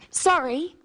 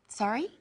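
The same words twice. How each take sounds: First: It is said as an apology. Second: It is said as a question.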